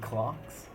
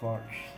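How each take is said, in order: First: It is said as one syllable like clocks. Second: It ends with a throaty Greek chi sound. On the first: "you can even say clocks" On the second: "where you pronounce the X like the Greeks do"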